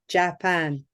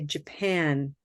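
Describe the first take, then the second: First: Both vowels sound like the same full vowel. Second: The first vowel is weaker than the second. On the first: The speaker calls it wrong. "two letter A's that can look like we should say Japan" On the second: The speaker calls it right. "But what I say, ... I say Japan"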